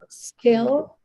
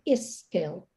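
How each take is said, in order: First: The word starts directly with the s sound. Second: An extra vowel is added before the s.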